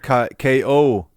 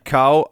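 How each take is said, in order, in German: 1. Der Name wird als zwei Buchstaben ausgesprochen, 'K.O.'. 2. Der Name wird einsilbig ausgesprochen, wie 'cow'.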